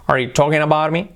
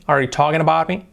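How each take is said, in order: Both takes have the same delivery.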